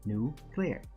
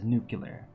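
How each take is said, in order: First: It is said as two parts, new-clear. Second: It is said with an extra syllable, nucular. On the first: The speaker calls it right. "we listen to it separately" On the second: The speaker calls it wrong. "They like say it incorrectly on purpose"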